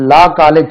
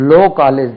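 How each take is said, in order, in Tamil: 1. 'law' வார்த்தையில் உள்ள உயிரெழுத்து 'ah' போல ஒலிக்கும். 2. 'law' வார்த்தையில் உள்ள உயிரெழுத்து 'oh' போல ஒலிக்கும். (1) "அந்த லா காலேஜ் சொல்றீங்களே" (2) "அதே லோ காலேஜ் தான்"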